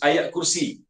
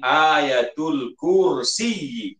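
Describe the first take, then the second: First: The first word ends without an added ul. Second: The first word ends with an added ul. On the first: "Kita sebut ayat kursi" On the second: "Jadi sebutan yang betulnya ayatul kursi"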